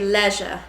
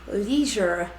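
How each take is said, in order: First: It is said in a British accent. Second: It is said in an American accent. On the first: "In England, we'll say" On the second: "in America, you guys will say"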